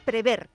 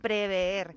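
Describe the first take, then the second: First: The vowel after the v is one short e. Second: The vowel after the v is a doubled e. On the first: The speaker calls it right. "Es prever, con una E" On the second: The speaker calls it wrong. "No prever"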